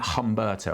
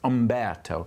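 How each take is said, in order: First: The name begins with an h sound. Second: The name begins directly with a vowel. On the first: The speaker calls it wrong. "I've been calling it Humberto and that's wrong" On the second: The speaker calls it right. "It's Umberto"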